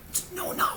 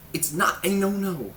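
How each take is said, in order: First: A breathy whispered aside. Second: A slow, louder correction with "not" stressed; emphatic correction. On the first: Host mocking the food myth, whispered. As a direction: whisper it like a secret. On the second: Host correcting the diet myth, slow and emphatic. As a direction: stretch it out and lean on "not". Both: Shown as a demonstration.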